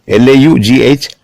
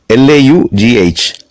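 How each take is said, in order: The two takes are said the same way.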